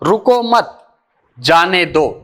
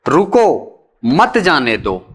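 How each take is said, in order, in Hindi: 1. 'मत' के ठीक बाद विराम है। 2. 'रुको' के ठीक बाद विराम है। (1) "मत शब्द के बाद।" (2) "रुको शब्द के बाद, जिसको आप अल्प विराम से दिखा रहे हैं।"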